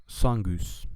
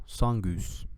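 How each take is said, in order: No difference in how they are said.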